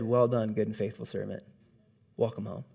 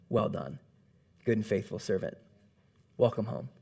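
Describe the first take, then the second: First: Low, hushed and solemn; voice of God, retold. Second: Low, soft and solemn, each phrase set apart; a gentle, weighty welcome from above; voice of God. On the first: [name] retelling God's welcome, low and hushed. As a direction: quietly echo God's blessing. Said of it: "he said". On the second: A narrator's reading. God welcoming the believer into heaven, low and solemn. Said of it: "God's voice shouts".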